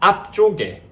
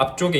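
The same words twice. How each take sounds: First: The start is stressed, in a dialect accent. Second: It is said evenly, in a standard accent. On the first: "강세를 주면 앞쪽에 이렇게" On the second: "표준어로 얘기를 하면 앞쪽에라고 하는데"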